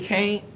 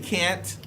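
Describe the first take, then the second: First: The vowel sounds like 'ain', as in caint. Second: The vowel sounds like 'an', as in pant. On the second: "They don't say can't"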